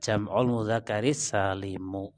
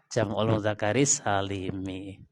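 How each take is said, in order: First: The final word ends with an u vowel. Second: The final word ends with an i vowel. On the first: This is the more commonly used form. "lebih terkenal, lebih banyak yang pakai mu" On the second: This is the grammatically stronger form. "Tapi lebih kuat yang mi"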